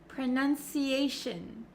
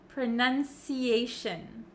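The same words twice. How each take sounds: No difference in how they are said.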